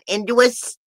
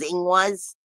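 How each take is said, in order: First: The name is said like 'Induus'. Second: The name is said like 'Ingwas'. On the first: The speaker calls it wrong. "a lot of people will call this rune Induus" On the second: The speaker calls it right. "the proper pronunciation is Ingwas"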